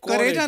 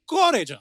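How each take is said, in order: First: The first syllable has an 'a' vowel. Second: The first syllable has a rounded 'o' vowel. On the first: The speaker calls it wrong. "करेजा नहीं" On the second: The speaker calls it right. "क्योंकि British accent"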